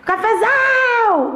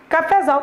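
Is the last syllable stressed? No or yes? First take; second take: yes; no. First: The stress is on the last syllable. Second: The stress is not on the last syllable. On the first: The speaker calls it right. "A sílaba tônica é a última" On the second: The speaker calls it wrong. "Cafezal também, não"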